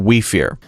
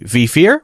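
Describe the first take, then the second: First: The first word begins with a w sound. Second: The first word begins with a v sound. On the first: The speaker calls it right. "we versus V" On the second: The speaker calls it wrong. "we versus V"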